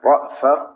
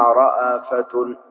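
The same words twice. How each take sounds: First: A short glottal stop closes the first syllable. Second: The glottal stop is followed by an a vowel.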